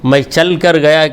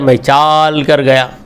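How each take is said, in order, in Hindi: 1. 'chal' में स्वर छोटा है। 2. 'chal' में स्वर लंबा खींचा गया है।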